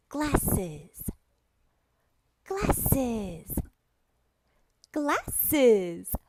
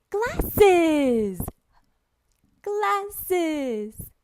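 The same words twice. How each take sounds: First: Measured, separated syllables for repeating; patient teacher drill, syllable by syllable; word modelling. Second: High, loud, stretched-out amazement; gushing kids' teacher drill; excited word modelling. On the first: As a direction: say the word clearly, then leave a gap. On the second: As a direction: exclaim the word like a wonderful surprise. Shows real glasses to imagined child. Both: Shown as a demonstration.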